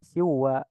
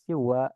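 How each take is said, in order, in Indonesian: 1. Bunyi n menyatu dengan w setelahnya. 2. Bunyi n menyatu dengan w setelahnya.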